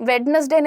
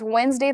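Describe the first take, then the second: First: Every letter is sounded, giving three syllables. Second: The middle is dropped, giving two syllables. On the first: The speaker calls it wrong. "वेडनेसडे नहीं होता है" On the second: The speaker calls it right. "It is वेंसडे"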